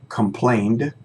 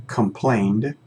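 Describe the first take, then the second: No difference in how they are said.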